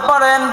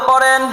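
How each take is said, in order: The two takes are said the same way.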